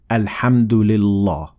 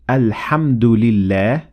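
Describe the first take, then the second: First: The L is pronounced heavy and full-mouthed. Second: The L is pronounced light and thin. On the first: The speaker calls it wrong. "and not alhamdulillah" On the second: The speaker calls it right. "that's why we say alhamdulillah"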